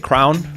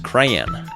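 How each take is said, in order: First: It is said the Great Lakes way. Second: It is said the Eastern US way.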